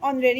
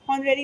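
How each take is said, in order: First: The word begins with a vowel sound. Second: The word begins with an h sound. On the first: The speaker calls it right. "ये ऑनरेरी होता है" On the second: The speaker calls it wrong. "हॉनरेरी नहीं होता है"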